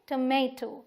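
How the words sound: The middle vowel is an 'ay' sound. This is the American way. "US ... इसे हम बोलेंगे टमेटो, just like पोटैटो"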